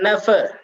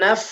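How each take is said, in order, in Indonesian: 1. Vokal pendek ditambahkan setelah f. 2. f ditahan tanpa vokal tambahan. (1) "Bukan nafa" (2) "tapi naf. Ditahan dan dialirkan"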